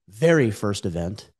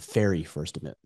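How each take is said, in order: First: The first word begins with a 'v' sound, like 'very'. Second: The first word begins with an 'f' sound, like 'fairy'. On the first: The speaker calls it right. "No, very first event" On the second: The speaker calls it wrong. "I think I said fairy first event"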